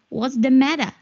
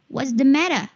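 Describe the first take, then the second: First: It is said in a British accent. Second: It is said in a British accent.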